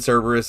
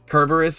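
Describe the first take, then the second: First: The name begins with a soft S sound. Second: The name begins with a hard K sound. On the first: This is a later, softened pronunciation. "Kerberos and Cerberus are both correct" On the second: This is the original Greek pronunciation. "Kerberos is the original pronunciation of the Greek"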